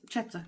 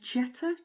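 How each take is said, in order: First: The name begins with a ch sound. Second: The name begins with a j sound. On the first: "the J is a ch sound in Dutch" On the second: "I think you pronounce it, Jetta?"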